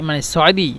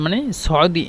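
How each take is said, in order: Both takes have the same delivery.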